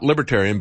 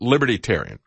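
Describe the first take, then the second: First: It is said as plain 'libertarian'. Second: It begins with the full word 'liberty'. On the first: The speaker calls it wrong. "Not Libertarian" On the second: The speaker calls it right. "It's L-I-B-E-R-T-Y, Libertarian. Not Libertarian, but Libertarian"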